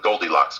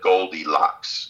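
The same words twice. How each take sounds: First: The word is said quickly in a tight rhythm. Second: The word is said slowly with syllables spread out. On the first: The speaker calls it wrong. "the triplet rhythm" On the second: The speaker calls it right. "I'd have to spread it out a little bit"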